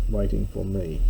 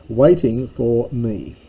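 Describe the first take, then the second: First: Said in the usual way. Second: Chuckling through the words, slower; a little laugh as you read it out; amused reading of the translation. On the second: Real, not acted.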